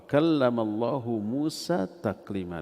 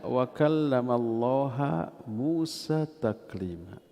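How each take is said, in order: First: The word Allah ends with a 'u' vowel. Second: The word Allah ends with an 'a' vowel. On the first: God spoke to Moses. "tanda rafa dengan dhammah" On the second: Moses spoke to God. "Allahnya dibaca ha"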